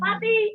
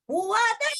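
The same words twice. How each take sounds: First: The name is called longer, as if farther. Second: The name is called longest, as if far. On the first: The person being called is a bit farther. "agak jauh dikit" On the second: The person being called is farther still. "Lagi jauh lagi dikit"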